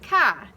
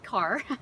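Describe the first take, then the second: First: It is said in a Boston accent. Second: It is said in a Connecticut accent. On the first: "someone from Boston might say the same word, but it sounds something more like ka" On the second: "when someone from Connecticut says the word car, it sounds like that"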